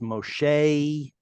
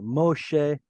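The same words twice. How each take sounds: First: It ends in an 'ay' glide vowel. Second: It ends in a short 'eh' vowel.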